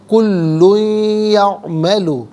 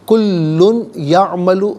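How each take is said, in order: First: The n merges into a nasalized ya sound. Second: The n is pronounced clearly before ya. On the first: The speaker calls it right. "या की आवाज़ को गुन्ने के साथ अदा करेंगे" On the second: The speaker calls it wrong. "गलत है"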